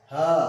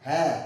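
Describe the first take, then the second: First: The ha sound is thick and heavy. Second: The ha sound is thin, lips spread. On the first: The speaker calls it wrong. "Tidak boleh kita mengucapkan ha, ha, salah ya" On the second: The speaker calls it right. "Karena dia hurufnya tipis"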